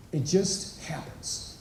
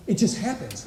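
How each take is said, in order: First: "It just happens" breathed slow and soft; hushed repeat. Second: Said in the usual way. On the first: Shown as a demonstration. Repeating his point to the men, slow and whispered. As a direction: let "happens" sink into a near whisper.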